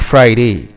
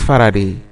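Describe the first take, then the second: First: The name is squeezed into two syllables. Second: The name is said with three full syllables. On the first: The speaker calls it wrong. "it's not Friday" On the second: The speaker calls it right. "it's Faraday"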